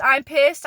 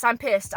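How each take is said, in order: First: Louder, rising on pissed. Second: Said in the usual way. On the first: Real, not acted. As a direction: hit pissed with real anger.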